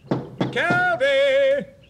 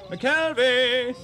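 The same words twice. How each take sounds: First: The name is yelled much more loudly. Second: The name is called at moderate volume.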